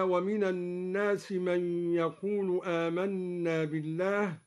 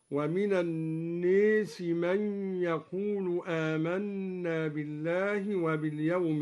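First: الناس with an open aa; standard recitation. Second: الناس with the alef leaned toward e; Duri imala. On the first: Teacher reciting الناس with an open alef. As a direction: keep the alef of الناس wide. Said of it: "بإمالة الألف بعد النون". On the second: Teacher showing students the imala of الناس. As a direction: say الناس as naes, leaning the vowel. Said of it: "بإمالة الألف بعد النون ... هكذا". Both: Shown as a demonstration.

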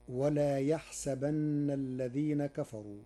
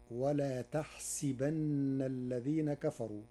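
First: "يحسبن" said yahsabanna, with initial y; "يحسبن" as ya-HSA-banna, not with t; reading with ya. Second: "تحسبن" said tahsibanna, with t and si; "تحسبن" as ta-HSI-banna, drawn out; ta, kasra on sin. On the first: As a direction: recite "يحسبن" with a y and an open a after the s. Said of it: "قرأ ورش كلمة يحسبن". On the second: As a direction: recite "تحسبن" slowly with t and an i after the s. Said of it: "بتاء الخطاب مع كسر السين،". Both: Shown as a demonstration.

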